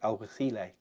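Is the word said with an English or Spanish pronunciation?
Spanish. It is said with a Spanish pronunciation. "the Spanish guys, and it's something along the lines of"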